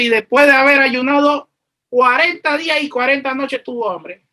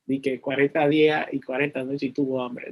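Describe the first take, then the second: First: Raised, emphatic scripture reading; verse read aloud. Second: Low, soft wry aside; wry mock disbelief. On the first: Real, not acted. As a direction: proclaim the verse to the congregation. Reads the verse out in earnest. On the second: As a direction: repeat it as if you can't quite believe it. Jokes in disbelief at the verse.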